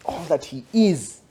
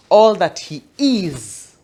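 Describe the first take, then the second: First: "All that he is" restated with a falling "is"; emphatic repeat. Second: "all that he is" drawn out loud and high; emphatic preaching. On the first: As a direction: let "is" fall, with less force. Repeats key phrase less forcefully. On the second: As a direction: slowly proclaim "all that he is", stretching "is". Preacher drives home the key phrase. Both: Real, not acted.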